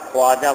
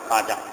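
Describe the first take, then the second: First: The first syllable has a w glide, khwa. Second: The first syllable is a plain kha, no glide. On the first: The speaker calls it wrong. "খোয়াজা বলা যাবে না" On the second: The speaker calls it right. "বলতে হয় খাজা"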